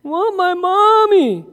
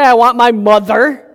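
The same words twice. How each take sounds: First: High, slow whine of Want my mommy; whiny toddler. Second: Said in the usual way. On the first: Shown as a demonstration. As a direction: pout it like a sleepy little girl. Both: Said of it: "She didn't say".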